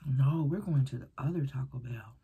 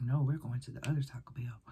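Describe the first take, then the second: First: Said in the usual way. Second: Flat hushed whisper; whispered insistence. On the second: Retold or imitated. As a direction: whisper the line, eerie and firm. Friend's insistence retold as whisper.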